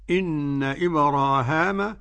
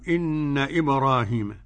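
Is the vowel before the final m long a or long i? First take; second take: long a; long i. First: The vowel before the final m is long a. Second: The vowel before the final m is long i. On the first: "بالألف" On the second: "والياء"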